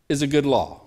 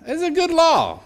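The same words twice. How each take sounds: First: Said in the usual way. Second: Emphatic high insistence. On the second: Real, not acted. Preacher insisting to the congregation that the law is good, high and emphatic. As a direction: hit it high to win the crowd over.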